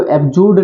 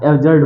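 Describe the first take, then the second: First: एब्सर्ड said as "ep-jud", with a p and an oo vowel, no r; the mistaken "ep-jood" version of एब्सर्ड; wrong pronunciation. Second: एब्सर्ड said as "ev-zurd", with a clear r before the final d; the right way: एब्सर्ड as "ev-zurd"; correct pronunciation. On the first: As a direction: demo of how not to say एब्सर्ड, "ep-jud". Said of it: "इसको एब्सर्ड नहीं बोलना है". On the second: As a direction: model version of एब्सर्ड, "ev-zurd". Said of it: "एब्सर्ड होगा". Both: Shown as a demonstration.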